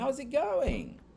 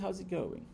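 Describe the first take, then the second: First: It is said in a happy tone. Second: It is said in a sad tone. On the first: The speaker is feeling cheerful. "Se eu estiver bem alegre" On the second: The speaker is feeling down. "Se eu estiver triste"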